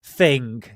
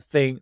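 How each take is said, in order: First: "thing" with the g sounded at the end, a bit louder. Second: "thing" with a k sound at the end, farm-country accent; Southwest thing with k. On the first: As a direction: say "thing" properly, ending on a clear g. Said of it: "It's actually thing with a G". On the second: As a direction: say "thing" ending in a hard k, Southwest style. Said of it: "we say k at, at the end". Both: Shown as a demonstration.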